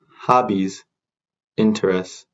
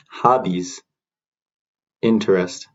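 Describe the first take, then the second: No difference in how they are said.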